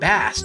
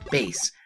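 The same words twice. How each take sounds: First: It sounds like the name of the fish. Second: It sounds like the musical term for low notes. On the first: The name refers to a kind of fish. "due to the fact that his helmet has a fish fin shape" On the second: The name refers to low musical notes. "since his Japanese name is Forte, and his dog's name is Treble"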